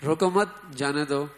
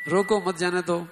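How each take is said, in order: First: "روکو مت" as one unit, pause, then "جانے دو"; pause after مت. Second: "روکو" set apart, then "مت جانے دو" in one run; pause after روکو. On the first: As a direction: break "روکو مت. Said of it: "اس نے اس کو پڑھ لیا". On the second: Teacher reading the order to catch the thief, pause after روکو. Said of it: "پکڑنا تھا اس کو". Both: Shown as a demonstration.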